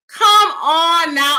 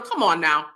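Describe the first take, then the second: First: Come, on, now, drawn out and loud. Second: Said in the usual way. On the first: Real, not acted. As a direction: Come on now stretched slow, high and loud. Reacting to a comment.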